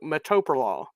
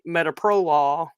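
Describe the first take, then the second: First: It is said the way northerners say it. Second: It is said the way locals say it down south.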